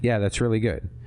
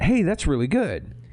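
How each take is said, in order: First: It sounds flat, like Ken's usual praise. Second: It sounds excited and genuinely enthusiastic.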